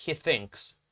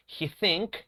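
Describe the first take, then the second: First: He thinks with a clear S hiss at the end of thinks; correct S ending. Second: He think said as the wrong form with no S sound on think. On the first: Teacher giving the correct form to students, He thinks with S. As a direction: land a crisp S on thinks. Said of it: "la pronunciación es con el sonido de la S". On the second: Teacher demonstrating the wrong form to students, He think. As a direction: model the mistake He think, without the final S. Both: Shown as a demonstration.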